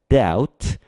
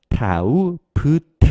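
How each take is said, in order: First: No 'b' sound is pronounced before the final t. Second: A 'b' sound is pronounced before the final t. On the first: The speaker calls it right. "B 발음을 하지 않고 뒤에 T로 바로 넘어가는 거예요" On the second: The speaker calls it wrong. "이렇게 발음할 것 같지만 B 발음을 하지 않습니다"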